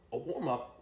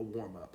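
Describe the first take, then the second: First: Higher, disbelieving question; incredulous echo. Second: Said in the usual way. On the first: Retold or imitated. Smoker questioning his friend's words, incredulous. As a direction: throw the words back in disbelief.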